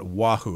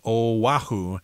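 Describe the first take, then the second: First: The name is said as 'Wahoo'. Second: The name is said as 'Oahu'. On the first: The speaker calls it wrong. "not Wahoo, as I just said" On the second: The speaker calls it right. "you're supposed to pronounce it as Oahu"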